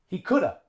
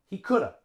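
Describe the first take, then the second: Both takes have the same delivery.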